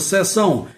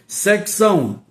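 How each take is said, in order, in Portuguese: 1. A palavra não tem som de k antes do s. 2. A palavra tem som de k antes do s. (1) "Aqui nós usamos seção sem o C" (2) "Vou mudar aqui a pronúncia só para diferenciar"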